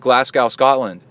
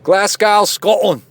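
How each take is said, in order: First: It is said in the speaker's normal accent. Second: It is said in a put-on Scottish accent.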